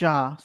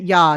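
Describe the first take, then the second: First: The word is said with an English pronunciation. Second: The word is said with a German pronunciation. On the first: The speaker calls it wrong. "not ja" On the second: The speaker calls it right. "Germans pronounce it ja"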